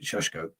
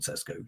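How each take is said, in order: First: The name begins with an 'sh' sound. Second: The name begins with an 's' sound. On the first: The speaker calls it right. "this is how you pronounce it" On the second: The speaker calls it wrong. "not Sesko"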